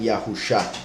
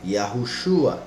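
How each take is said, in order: First: The name ends with a short 'sha' sound. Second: The name ends with a 'shua' sound. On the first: The speaker calls it wrong. "algunas personas pronuncian Yahusha" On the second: The speaker calls it right. "La pronunciación es una, Yahushua"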